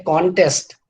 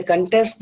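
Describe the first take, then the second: First: Contest stressed on the first syllable, con; noun stress. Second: Contest stressed on the second syllable, test; verb stress. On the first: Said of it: "then it is a noun". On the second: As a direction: say contest as a verb, unstressed con, strong test. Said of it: "then it is a verb". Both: Shown as a demonstration.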